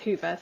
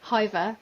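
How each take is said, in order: First: The first vowel sounds like 'hoo'. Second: The first vowel sounds like 'high'. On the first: This is the official pronunciation. "the official pronunciation is Hoover" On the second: This is the habitual English reading. "in English we always want to say Hiver"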